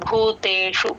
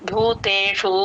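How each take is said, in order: First: The final vowel is cut off short. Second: The final vowel is drawn out melodically. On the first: The speaker calls it right. "భూతేషు అంతే cut చేయాలి" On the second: The speaker calls it wrong. "ట్యూన్ కోసం భూతేషు అని అనకూడదు"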